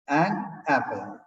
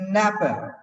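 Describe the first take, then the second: First: The two words are said clearly and separately. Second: The two words are run together into one. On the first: "actually, it is an apple" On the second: "comes and says, okay, napper"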